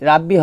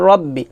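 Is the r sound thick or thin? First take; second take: thin; thick. First: The r is thin with an open a vowel. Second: The r is thick with a rounded vowel. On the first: The speaker calls it wrong. "রাব্বি হবে না" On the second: The speaker calls it right. "হবে রব্বি, রটা মোটা হবে"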